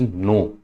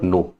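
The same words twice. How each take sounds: First: "no" said as French non; French pronunciation. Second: "no" said as the English word; English pronunciation. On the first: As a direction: say "no" as French non, a nasal o with silent final n. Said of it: "This is no". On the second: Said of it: "This is not no". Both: Shown as a demonstration.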